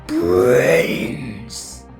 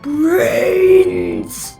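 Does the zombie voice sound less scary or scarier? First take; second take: scarier; less scary. First: The zombie voice sounds much scarier. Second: The zombie voice sounds only mildly scary.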